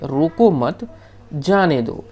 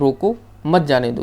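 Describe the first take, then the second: First: The pause comes right after 'mat'. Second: The pause comes right after 'roko'.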